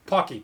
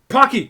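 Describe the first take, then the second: First: Said in the usual way. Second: Loud, higher cry of sudden recall; triumphant shout. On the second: Real, not acted. Streamer finally recalling the snack name, triumphant shout. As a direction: shout it as it finally comes back.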